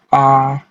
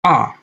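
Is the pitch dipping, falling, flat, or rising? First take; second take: flat; falling. First: The pitch stays level throughout. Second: The pitch falls sharply from high to low. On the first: "nada datar, suara yang datar dan konsisten dari awal hingga akhir kata" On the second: "nada jatuh, nada yang menurun"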